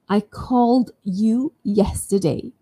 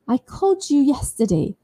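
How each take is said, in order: First: The d and y sounds stay separate. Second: The d and y merge into a j sound.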